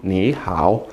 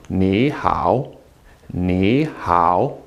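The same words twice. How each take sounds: First: "Ni hao" with both syllables low and dipping; both third tone. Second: "Ni hao" with Ni rising, hao low and dipping; second then third tone. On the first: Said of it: "say them quickly in both in third tone". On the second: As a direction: lift "Ni", then dip on "hao". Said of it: "making the first one a second tone". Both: Shown as a demonstration.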